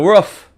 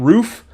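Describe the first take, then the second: First: It is said in a New England accent. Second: It is said in a neutral accent. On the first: "she'll be like the roof" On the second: "instead of saying roof"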